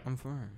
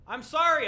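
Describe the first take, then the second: First: It is said quietly. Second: It is said loudly.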